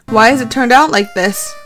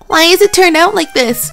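First: It is read in the speaker's own plain voice. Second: It is read in a put-on female character voice.

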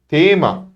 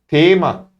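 No difference in how they are said.

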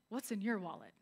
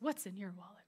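First: It is said in a normal speaking voice. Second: It is said in a commercial announcer voice.

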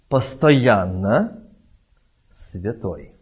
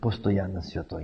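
First: A pause separates the two words. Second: The two words run together without a pause. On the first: A holy man always passes by. The speaker calls it right. "Кома святой. Не постоянно святой, а святой" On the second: The man is always holy. The speaker calls it wrong. "А мы часто говорим"

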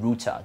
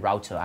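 First: The first syllable sounds like 'roo', as in boot. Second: The first syllable sounds like 'row', as in out. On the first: "แต่ที่ UK ... พอไปในตัวที่เราใช้สำหรับอินเทอร์เน็ตก็คือ" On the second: "แต่ว่าพอที่อเมริกาอาจจะเป็น"

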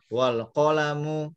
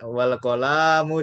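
First: The vowel after the L is kept short. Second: The vowel after the L is drawn out long. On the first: The speaker calls it right. "ini pendek loh" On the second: The speaker calls it wrong. "Kolamnya kok lamnya dipanjangin lagi nih, aduh. Jangan wal kolamu, jangan gitu ya"

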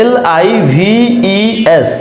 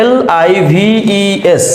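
No difference in how they are said.

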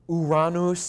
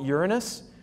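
First: It does not sound like the word urinous. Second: It sounds like the word urinous. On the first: "if you want to pronounce it absolutely correctly and not have people giggle at you" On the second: "Most astronomers call it Uranus, which is how I pronounce it, but that kind of sounds like an adjective"

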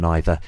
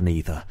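First: It is said with a British pronunciation. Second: It is said with an American pronunciation. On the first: "if you want to be quintessentially British, stick to either, neither" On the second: "If you want to be American, say either, neither"

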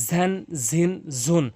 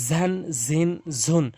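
The two takes are said the same way.

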